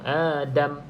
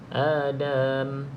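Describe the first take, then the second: First: The word's ending is cut off short. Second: The word's ending is drawn out long. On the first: The speaker calls it right. "Adam terus potong. Adam. Ha, pendek eh" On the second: The speaker calls it wrong. "jangan panjang eh, sebab ada pelajar saya tu dia baca kamathali Adam"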